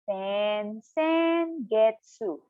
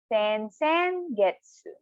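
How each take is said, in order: First: It is said slowly, syllable by syllable. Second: It is said at normal speed.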